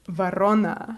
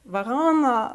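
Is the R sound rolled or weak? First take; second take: rolled; weak. First: The R is strongly rolled. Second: The R is weak and not rolled. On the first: The speaker calls it right. "a really intense R" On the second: The speaker calls it wrong. "like with like a weird weird R"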